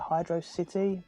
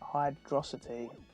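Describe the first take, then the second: First: The name ends with the separate word 'city'. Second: The name ends in '-ocity', like one word. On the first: The speaker calls it right. "I've always called it Hydro uh, Hydro City" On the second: The speaker calls it wrong. "some people seem to want to call it Hydrocity"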